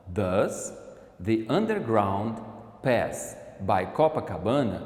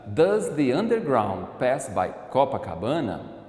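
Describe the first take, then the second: First: Slow, word by word. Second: Said in the usual way. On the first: Shown as a demonstration. Teacher repeating the question slowly for the class. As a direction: break the question into slow chunks. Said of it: "repeats the question slowly". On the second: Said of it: "Ou a outra possibilidade".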